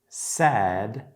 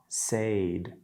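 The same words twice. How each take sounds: First: The vowel is a short E sound. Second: The vowel is a long A sound. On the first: The speaker calls it right. "It's said" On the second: The speaker calls it wrong. "not said"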